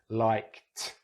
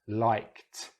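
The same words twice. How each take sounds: The two takes are said the same way.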